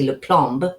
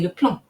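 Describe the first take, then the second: First: The final consonants are sounded as spelled. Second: It ends in a nasal vowel, final consonants silent. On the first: The speaker calls it wrong. "I don't say le plomb" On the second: The speaker calls it right. "I say le plomb, le plomb, as if it was P L O N"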